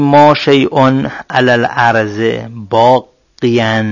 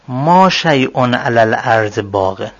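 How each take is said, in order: First: Slow, drawing out باقیاً with a full -iyan ending; ending baqiyan. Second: Slow, ending the last word باقن with -in; ending baqin. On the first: Teacher giving the corrected version, drawing out باقیاً with -iyan. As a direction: stretch باقیاً, stressing the long -yan ending. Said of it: "باقیاً باید بگیم". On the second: Teacher reading the first version of the example, ending باقن in -in. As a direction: say باقن with the tanwin -in ending, unstressed. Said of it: "اینجا هیچ اشکالی نداره". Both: Shown as a demonstration.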